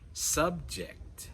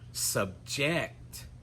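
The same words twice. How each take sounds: First: The stress is on the first syllable. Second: The stress is on the last syllable. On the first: It is used as a noun or adjective. "the stress is on the first syllable" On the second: It is used as a verb. "we're going to put the stress on the final syllable"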